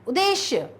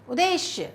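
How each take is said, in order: The two takes are said the same way.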